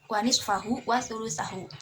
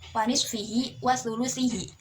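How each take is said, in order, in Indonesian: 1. Akhiran-akhiran memakai vokal 'a' sebelum 'hu'. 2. Akhiran-akhiran memakai vokal 'i' sebelum 'hi'.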